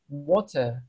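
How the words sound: The final R is silent. "kayak R-nya tuh silent gitu loh"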